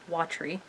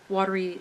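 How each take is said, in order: First: The word is said with two syllables. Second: The word is said with three syllables. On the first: "so it's two syllables" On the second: "instead of uh, three"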